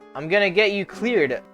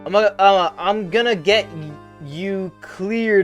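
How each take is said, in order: First: It is said smoothly, without hesitation. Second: It is said haltingly, imitating the character's stutter.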